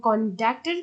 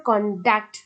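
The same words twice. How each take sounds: First: কন্ডাক্টের with ডাক pressed; stress on second syllable. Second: কন্ডাক্ট with কন pressed; stress on first syllable. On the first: Teacher showing the verb form, stressed ডাক in কন্ডাক্টের. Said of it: "ডাককে pressure দেওয়া হচ্ছে". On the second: Teacher showing the noun form, stressed কন in কন্ডাক্ট. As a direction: lean on কন, ease off ডাক্ট in কন্ডাক্ট. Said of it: "কনের উপর একটু pressure দেওয়া হচ্ছে". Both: Shown as a demonstration.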